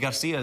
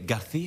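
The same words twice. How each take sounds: First: The c is said as a plain s sound. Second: The c is said as a lisped th sound. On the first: This is not how people in Spain say it. "in Spain they don't say Garcia" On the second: This is how people in Spain say it. "they say Garcia"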